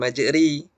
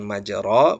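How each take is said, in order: First: The vowel after r sounds like i. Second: The vowel after r sounds like a. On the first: "bukan majri" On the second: "bukan majro"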